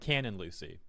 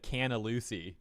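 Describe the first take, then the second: First: The final n of the first word is clearly pronounced. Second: The final n of the first word is dropped. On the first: The speaker calls it right. "I was saying Canon Lucy" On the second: The speaker calls it wrong. "It kind of sounded like I said Canna Lucy"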